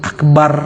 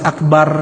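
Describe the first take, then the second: Both takes have the same delivery.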